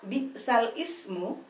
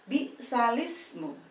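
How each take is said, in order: First: Ismu is said separately with its own vowel. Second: Ismu is joined onto bi'sal as bi'salismu.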